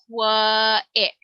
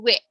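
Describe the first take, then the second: First: The start is split into an extra qua syllable. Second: The start glides smoothly from a rounded coo sound. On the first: The speaker calls it wrong. "we do not say qua-in, qua-ick" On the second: The speaker calls it right. "think about saying coo"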